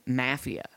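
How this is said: The word is said with a British pronunciation. "They pronounce it in Britain, Mafia"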